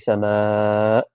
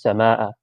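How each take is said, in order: First: The long vowel is drawn out extra long. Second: The vowel is kept at ordinary length. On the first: This is how it is recited in the Quran. "with with a little one of these" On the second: This is how it is said in ordinary Arabic. "is just sama'a or sama'u, right, without"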